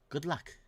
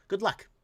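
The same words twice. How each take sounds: First: "Good luck" dropped much softer, half under the breath; muttered repeat. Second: Said in the usual way. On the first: Real, not acted. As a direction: let the second "Good luck" fall away quietly.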